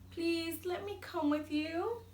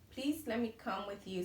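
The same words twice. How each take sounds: First: It is read in an expressive, emotional voice. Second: It is read in a flat, unexcited voice. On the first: The speaker calls it right. "Did you notice how I changed my voice?" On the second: The speaker calls it wrong. "I used one voice for both characters. I didn't sound nervous or excited"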